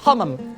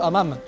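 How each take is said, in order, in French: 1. Le H initial est nettement aspiré. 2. Le H initial est muet. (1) "ici le H est bien prononcé"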